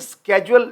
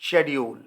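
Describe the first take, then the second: First: It is said in an American accent. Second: It is said in a British accent.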